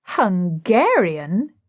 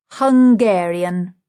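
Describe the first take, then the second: First: Slow rising question on "Hungarian"; amazed echo. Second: Slow, louder, weighty pronouncement of "Hungarian"; firm verdict. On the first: The whole group echoing Nepomuk, slow astonished question. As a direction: let "Hungarian" hang in disbelief. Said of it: "All the rest". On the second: Nepomuk revealing the girl's origin, slow and emphatic. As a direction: drop "Hungarian" like a revelation. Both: A narrator's reading.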